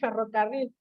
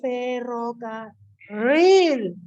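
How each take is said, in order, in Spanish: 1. La R en medio es corta. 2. La R en medio se alarga.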